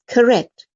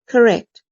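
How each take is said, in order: The two takes are said the same way.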